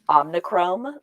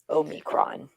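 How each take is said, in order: First: It has an added n and ends in chrome. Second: It has no added n and ends in cron. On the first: The speaker calls it wrong. "I've been calling it omnichrome, and I know that's wrong" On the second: The speaker calls it right. "the Greek letter is Omicron"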